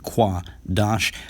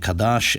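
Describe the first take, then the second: First: The word begins with a kw sound. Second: The word begins with a plain k sound. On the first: This is how the system's proponents say it. The speaker calls it right. "proponents of Lashwan Kodash pronounce it Kwa Dash" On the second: This is how the system's critic says it. The speaker calls it wrong. "he's pronouncing it Kadash"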